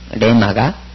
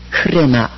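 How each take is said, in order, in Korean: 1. 단어는 바로 r 소리로 시작합니다. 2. 단어는 r 앞의 거친 h로 시작합니다. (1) "레마가 흐레마 이렇게 되는 셈이죠" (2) "H 음가를 내줘야 되겠죠"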